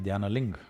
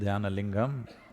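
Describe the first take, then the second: First: The word ends without its last syllable. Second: The word ends with its full last syllable. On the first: "they'll say ... cut it off" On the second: "If you say"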